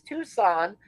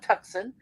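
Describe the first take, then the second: First: No C sound is heard in the middle. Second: A C sound is heard in the middle. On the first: It is the local way of saying the name. The speaker calls it right. "The C is silent" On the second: The name is read as it is spelled. The speaker calls it wrong. "it's not Tucson"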